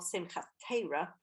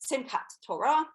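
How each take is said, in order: First: It is said with an Ashkenazi Hebrew pronunciation. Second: It is said with a Sephardi Hebrew pronunciation.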